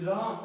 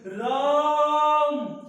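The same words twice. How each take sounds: First: The vowel is said short and plain. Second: The vowel is drawn out long, like calling.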